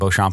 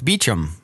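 First: The name is said in the French-style way. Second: The name is said as 'Beecham'. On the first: This is the original form of the name. "even though originally the French pronunciation" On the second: This is how it is said in England. "which I guess that's how they pronounce it there"

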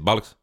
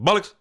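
First: The word is said at a normal volume. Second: The word is said loudly, almost shouted.

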